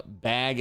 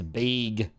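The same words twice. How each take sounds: First: Said in the usual way. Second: BAG drawn out as "bayg"; mimicked regional "bayg" for bag; Midwestern vowel. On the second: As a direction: say bag with a long "ay", as in vague. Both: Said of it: "when she says".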